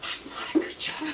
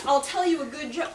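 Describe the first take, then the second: First: Laughing disbelief. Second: Southern accent quote. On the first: Real, not acted. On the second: Shown as a demonstration. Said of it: "account began".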